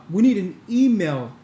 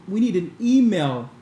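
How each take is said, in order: Both takes have the same delivery.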